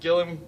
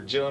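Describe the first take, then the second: First: The name begins with a hard G sound. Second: The name begins with a J sound. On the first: "with a G sound" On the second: "with a J sound"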